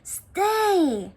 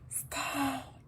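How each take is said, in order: First: The word is shouted loudly. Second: The word is whispered softly.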